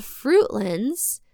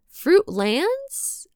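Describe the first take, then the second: First: Said in the usual way. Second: Fruitlands? asked with a high rising doubtful tune; questioning rise. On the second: Shown as a demonstration. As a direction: say Fruitlands? like checking your own pronunciation. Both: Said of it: "is my Midwestern accent mangling this".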